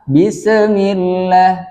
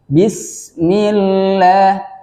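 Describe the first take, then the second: First: The s is released with a bouncing echo. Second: The s is held cleanly without a bounce. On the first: The speaker calls it wrong. "Yang salah" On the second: The speaker calls it right. "yang benar"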